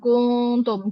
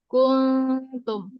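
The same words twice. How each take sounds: First: The lips stay rounded to the word's end. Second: The lips are pulled back, not rounded. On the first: The speaker calls it wrong. "jangan dia monyongkan sampai akhir" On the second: The speaker calls it right. "kita tarik bibir"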